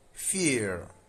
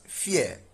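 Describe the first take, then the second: First: It is said with an American accent. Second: It is said with a British accent. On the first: "U S pronounce this as fear" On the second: "U K pronounce this as fear"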